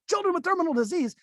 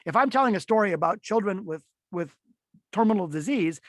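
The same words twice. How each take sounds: First: Much higher, chirpy and bright about a grim topic; mismatched cheerful voice. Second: Said in the usual way. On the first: Shown as a demonstration. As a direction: say it like happy news. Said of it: "that would be a wild, horrible disconnect". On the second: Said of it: "that's more resonant because I'm more caring".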